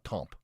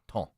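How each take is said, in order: First: The word ends with a clear p sound. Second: The word ends without a p sound. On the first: The speaker calls it wrong. "Not temp" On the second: The speaker calls it right.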